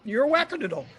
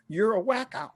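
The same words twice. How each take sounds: First: Teasing nurse. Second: Higher, playful jab: You're a wacko; teasing nurse. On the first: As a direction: top the last jab with wackadoodle. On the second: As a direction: call him a wacko in a teasing tone. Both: Retold or imitated. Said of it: "They're like".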